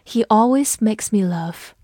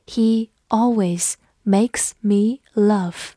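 First: Said in the usual way. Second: Slow, careful model reading; teacher reading slowly for the class. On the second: Shown as a demonstration. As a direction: stretch each word out slowly. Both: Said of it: "我们慢读一遍".

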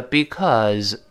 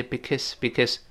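First: "because" with a full, drawn-out second vowel; slow full form. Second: "because" unstressed and softer, with a short schwa, bi-kəs; quick weak form. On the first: Teacher shows the word read slowly, full vowel. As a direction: say "because" slowly as bee-KAWZ. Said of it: "读慢了叫because". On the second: Teacher shows the fast reading, weak vowel. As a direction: toss off "because" quickly as bik-əs. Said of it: "读快之后呢，不重读了". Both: Shown as a demonstration.

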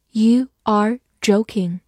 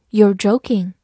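First: Slow, separated words, uncontracted; slow reading. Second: Said in the usual way. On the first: Shown as a demonstration. Teacher models the sentence for learners, slow reading. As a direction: read it word by word for learners.

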